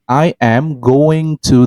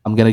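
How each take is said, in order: First: Each word is said fully and separately. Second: The words are shortened and run together. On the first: The speaker calls it wrong. "At school you might be taught like" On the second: The speaker calls it right. "it gets shortened"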